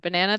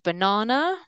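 First: It is said with an American accent. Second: It is said with an Australian accent.

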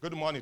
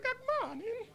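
First: It is said in his natural voice. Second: It is said in a put-on voice.

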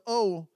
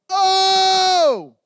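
First: It is a plain, ordinary oh. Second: It is an intense, crying oh.

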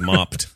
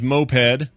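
First: It is said with one syllable, like mopped. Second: It is said with two syllables, like mope-ed. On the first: The speaker calls it wrong. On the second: The speaker calls it right.

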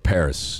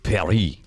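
First: The word is said with an English accent. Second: The word is said with a French accent. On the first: "if you're not down with the French accent" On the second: "the French accent that I've got going on here"

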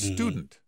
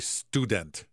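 First: The word is pronounced in a plain, relaxed way. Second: The word is pronounced with exaggerated care. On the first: The speaker calls it right. "It's student" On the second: The speaker calls it wrong. "They're over-pronouncing it"

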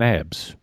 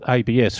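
First: It is pronounced together as a single word. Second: It is spelled out as three separate letters. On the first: "If we called it ABS, it'd an acronym" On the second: "We tend to call it ABS"

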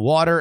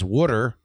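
First: It is said in a standard accent. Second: It is said in a Baltimore accent.

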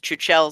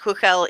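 First: The name is pronounced as it is spelled. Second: The name is given its Czech pronunciation. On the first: This is the common pronunciation the makers accepted. "they've heard people pronounce it as Chuchel so often" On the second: This is the original pronunciation. "it's pronounced Huchel in Czech"

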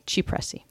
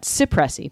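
First: The word starts with a ch sound. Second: The word starts with an s sound. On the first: The speaker calls it right. "it's actually supposed to sound like an English CH" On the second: The speaker calls it wrong. "Most people will make it sound like an S"

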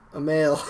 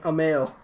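First: The first vowel is an unstressed schwa. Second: The first vowel is stressed. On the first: The speaker calls it right. "There you go" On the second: The speaker calls it wrong. "The whole point of a schwa is that you can't put stress on it"

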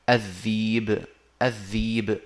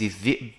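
First: The word has a long vowel instead of a stop. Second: The word has a glottal stop in the middle. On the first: "فتصير الذيب" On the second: "إبدال همز الذئب"

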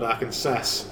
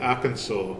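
First: The ending sounds like the word 'Kansas'. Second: The ending does not sound like 'Kansas'. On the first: The speaker calls it wrong. "not Arkansas" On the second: The speaker calls it right. "like Arkansas"

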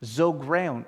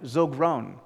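Both takes have the same delivery.

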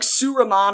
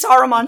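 First: The first vowel is a 'u'-like sound. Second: The first vowel is an open 'a' sound. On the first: This is how the film sometimes said the name. "sounded like Suriman" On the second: This is the usual form of the name. "sometimes Saruman"

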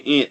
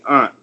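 First: The word sounds like the insect ant. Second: The word has a broad ah vowel. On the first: This is how the imitated group says it. "they say aunt" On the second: This is how the imitated group does not say it. "they don't say aunt"

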